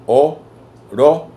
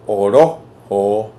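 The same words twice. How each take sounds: First: "orojo" slow, higher and loud; raised stressed demo. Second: "orojo" drawn out slowly, loud; slow demo word. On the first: Teacher repeats the word, pitching it up for stress. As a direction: lift and stretch "orojo". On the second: Teacher sounds out a Wayuu word for the class, slowly. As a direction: stretch out "orojo" syllable by syllable. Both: Shown as a demonstration. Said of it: "Y así otras palabras como".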